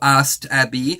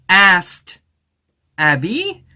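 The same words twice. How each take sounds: First: The word 'asked' is said lightly, without emphasis. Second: The word 'asked' is said with strong emphasis. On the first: The speaker calls it right. "instead of saying" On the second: The speaker calls it wrong. "the narrator for this series emphasizes those words"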